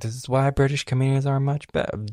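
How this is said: It is spoken in an American accent.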